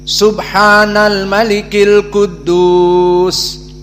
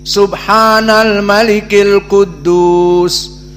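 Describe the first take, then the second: No difference in how they are said.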